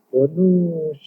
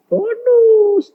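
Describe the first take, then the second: First: Said in the usual way. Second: Very high, stretched BONUS; gleeful high-pitched repeat of "Bonus"; high exclamation. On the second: Real, not acted. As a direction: sing out "Bonus" high to the crowd. Repeats word for the congregation.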